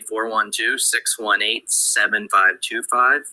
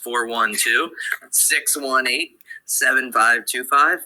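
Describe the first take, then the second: First: The number is said quickly. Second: The number is said slowly. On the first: "that was my Pittsburgh fast" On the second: "I'll say it a little bit slower"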